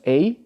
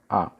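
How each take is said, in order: First: The vowel sounds like the one in gate. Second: The vowel is short, unlike the one in gate. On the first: "No primeiro tópico temos a, da palavra gate" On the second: "desse segundo tópico aqui"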